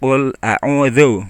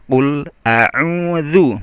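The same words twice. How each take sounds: First: The vowel drifts toward an 'o' sound. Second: The vowel is a clear, rounded 'u' sound. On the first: The speaker calls it wrong. "Kalau enggak jadi o ya" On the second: The speaker calls it right. "vokal u-nya benar-benar u"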